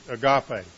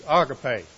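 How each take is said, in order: First: "agape" said uh-GAH-pay; alternative pronunciation. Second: "agape" said AH-guh-pay; Greek pronunciation. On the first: Preacher shows how we pronounce it, "agape" as uh-GAH-pay. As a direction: move the stress to the middle of "agape", uh-GAH-pay. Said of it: "or we pronounce it agape". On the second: Preacher teaches the Greek word for love, "agape" as AH-guh-pay. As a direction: stress the first syllable of "agape", AH-guh-pay. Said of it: "the correct pronunciation is agape". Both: Shown as a demonstration.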